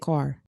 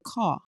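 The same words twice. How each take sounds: First: It is said in an American accent. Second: It is said in a British accent. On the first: "We say car" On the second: "they'd be like, I'm going to the car"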